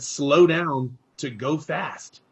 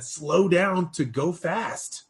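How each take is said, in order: First: Slow, deliberate, each word spaced; calm mentor slowing a fast talker down; slow mentor advice. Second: Slow, deliberate, rising at the end; calm mentor slowing a fast talker down; slow mentor advice. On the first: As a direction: spell the advice out slowly. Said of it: "He said". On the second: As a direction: let each word land. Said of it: "And so Gene said". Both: Retold or imitated.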